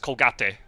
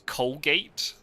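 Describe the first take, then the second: First: It is pronounced the Spanish way. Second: It is pronounced the English way. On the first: "in Spanish it's Colgate" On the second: "do you have the toothpaste brand in the States"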